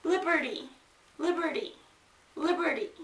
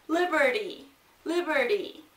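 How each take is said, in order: First: Liberty said quickly, the T a short tap. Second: Liberty with a short, quick T. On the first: Teacher to students, modeling liberty with a quick T. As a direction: snap through the T in liberty. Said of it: "entonces se dice rápido". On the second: Teacher to students, showing the quick T in liberty. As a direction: tap the T in liberty fast. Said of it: "La T es el énfasis de T, pero se dice rápido". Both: Shown as a demonstration.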